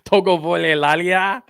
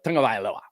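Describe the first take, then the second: First: The surname sounds like 'Togo Lalia'. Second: The surname sounds like 'Tagovailoa'. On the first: The speaker calls it wrong. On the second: The speaker calls it right.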